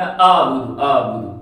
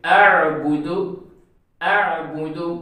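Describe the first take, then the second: First: आबुदु with a plain long a, no ain; wrong reading. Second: अअबुदु, hamza then a throaty ain; correct ain reading. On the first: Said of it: "तो ये गलत है". (गलत: आबुदु) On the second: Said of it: "आइन के बाद आएगी". (सही: अअबुदु) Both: Shown as a demonstration.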